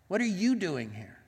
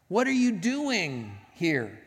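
First: The stress is on "you". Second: The stress is on "doing".

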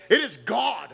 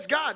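First: It is said with weighty, reverent emphasis. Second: It is said casually and offhandedly.

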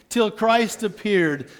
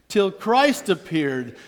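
The two takes are said the same way.

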